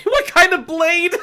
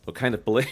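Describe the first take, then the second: First: High, slow laughing repeat; laughing disbelief. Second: Said in the usual way. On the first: Shown as a demonstration. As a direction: repeat it cracking up.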